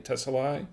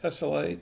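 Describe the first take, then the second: First: Tesselae ending in "lie"; alternative pronunciation. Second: Tesselae ending in "lay", raised questioningly; trying a pronunciation. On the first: Wine host settling on a second guess at the name, trying Tesselae as "tessa-lie". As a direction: say Tesselae with a final "eye" sound. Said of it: "I guess it's Tesselae". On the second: Wine host guessing how the name is pronounced, trying Tesselae as "tessa-lay". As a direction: say Tesselae with a final "ay" sound, rising. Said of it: "I guess that's how it's pronounced". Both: Shown as a demonstration.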